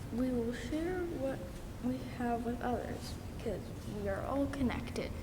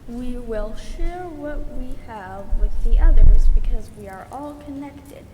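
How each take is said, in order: First: It is said at a quieter level. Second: It is said at a louder level.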